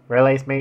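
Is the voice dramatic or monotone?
monotone. The voice is flat and monotone. "I'll do it again then"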